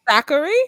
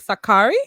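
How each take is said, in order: First: The stress is on the first syllable. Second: The stress is on a later syllable. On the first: "the stress is on the first syllable" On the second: "as opposed to"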